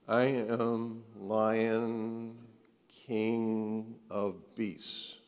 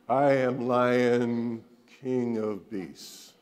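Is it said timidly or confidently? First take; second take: timidly; confidently. First: It is said timidly, without conviction. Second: It is said confidently, with conviction.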